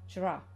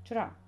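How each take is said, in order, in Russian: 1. Слово сокращено, звуки выпадают. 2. Слово сокращено, звуки выпадают.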